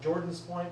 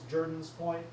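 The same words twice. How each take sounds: First: The name is said exactly as it is spelled. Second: The name is said the local way, unlike spelling. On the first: The speaker calls it wrong. "if you read it phonetically" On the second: The speaker calls it right. "if you pronounce it properly"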